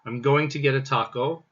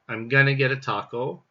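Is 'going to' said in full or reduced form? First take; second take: full; reduced. First: The words 'going to' are said in full. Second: The words 'going to' are reduced to 'gonna'. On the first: It sounds a little formal. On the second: It sounds casual and eager.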